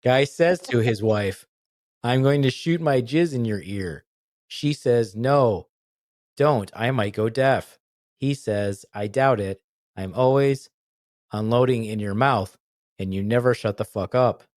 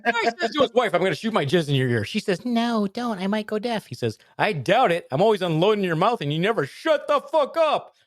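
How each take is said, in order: First: Slow, halting joke delivery; deliberately bad telling. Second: Much higher, faster joke read; silly high voice. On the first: Telling a dumb joke badly on purpose, halting and slow. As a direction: tell it like you can't tell a joke. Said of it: "gonna have to tell these poorly". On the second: Pretend. Retelling the joke badly, in a squeaky high voice. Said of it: "try to sound not like you".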